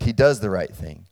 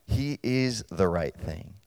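First: DOES lifted with a rising tune; stress on DOES. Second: Slow and soft, IS held long; "is" drawn out quietly for weight; stress on IS. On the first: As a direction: lean on "does" to mark the doing. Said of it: "God is right in conduct". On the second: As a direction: land on "is" as the point. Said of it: "that's what I'm talking about". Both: Shown as a demonstration.

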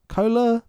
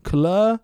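First: "Kohler" with a long O, like "KOH-ler"; trying a pronunciation. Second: "Kohler" with a short, unstressed first vowel, like "kuh-LER"; trying a pronunciation. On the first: Podcaster guessing at director's surname, "Kohler" with long "koh". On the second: Podcaster guessing at director's surname, "Kohler" with short "kuh". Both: Shown as a demonstration. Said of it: "I think it's pronounced Kohler".

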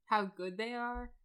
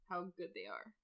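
First: Drawn out slowly and raised, savouring "How good they are?"; emphatic slow gush. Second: Said in the usual way. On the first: Shown as a demonstration. Gushing to her co-host about the fight scenes, slow and emphatic. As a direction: stretch every word of "How good they are?" in awe. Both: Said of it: "can we just talk about the action sequences".

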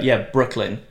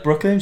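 First: "Brooklyn" falling, in a level voice; matter-of-fact confirmation. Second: "Brooklyn" higher, rising as a question; questioning echo. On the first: Woman confirming where she is going, "Brooklyn" falling firmly. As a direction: confirm "Brooklyn" with a plain downward tune. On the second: Man querying where she is going, "Brooklyn" rising in surprise. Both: Retold or imitated.

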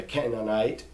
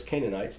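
First: "Canaanite" said as KEN-an-ite; short first vowel in "Canaanite"; original name pronunciation. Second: "Canaanites" said as KAY-nun-ites; long a opening "Canaanites"; familiar English pronunciation. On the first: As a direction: say "Canaanite" with a short opening vowel, not KAY. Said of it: "or we know them as Canaanites". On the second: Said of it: "we know them as Canaanites". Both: Shown as a demonstration.

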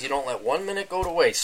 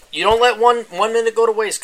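First: Said in the usual way. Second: Higher and louder, punching each word; rally the crew like a captain; booming motivational call; pep-talk shout. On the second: Acted.

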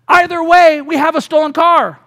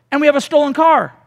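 First: Either way, we have a stolen car said louder and higher; emphatic punchline. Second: Said in the usual way. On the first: Shown as a demonstration. Preacher voicing the husband's calm conclusion, emphatic and louder.

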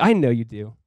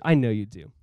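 First: Said in the usual way. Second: Softly and lower, tenderly reassuring; a gentle, hushed assurance; Jesus quietly reassuring Peter. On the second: Retold or imitated. Jesus reassuring Peter, repeated line.

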